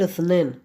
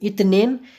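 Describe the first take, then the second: First: The middle consonant is an s sound. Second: The middle consonant is a t sound. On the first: "सा करके भी बोल सकते हो" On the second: "ता करके भी बोल सकते हो"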